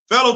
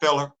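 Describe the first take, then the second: First: The word ends with an 'oh' sound. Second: The word ends with an 'er' sound. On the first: The speaker calls it right. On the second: The speaker calls it wrong.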